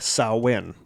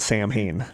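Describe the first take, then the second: First: The name is not said the way it's spelled. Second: The name is said the way it's spelled. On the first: The speaker calls it right. "it is not pronounced how it is spelled. it is pronounced Samhain" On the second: The speaker calls it wrong. "get it wrong"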